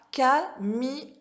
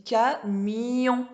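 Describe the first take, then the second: First: CAMION chopped into ca, mi, on, no glide; syllables split apart. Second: CAMION slowly, with a long y sliding into on; glided yon ending. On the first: Teacher showing the wrong reading, CAMION split into ca-mi-on. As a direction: say CAMION slowly as three separate beats, ca-mi-on. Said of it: "On dit pas camion". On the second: Teacher showing the correct reading, CAMION with gliding yon. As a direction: stretch CAMION as ca-miii-yon, mi joined to on. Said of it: "On dit camion. Y". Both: Shown as a demonstration.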